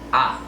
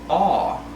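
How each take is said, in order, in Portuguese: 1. Uma vogal curta e rápida vinda da garganta. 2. Uma vogal mais lenta, com a língua mais para trás. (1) "Você faz tipo um movimento rápido com a parte de trás da garganta" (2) "algo mais lento e com a língua um pouco mais para trás"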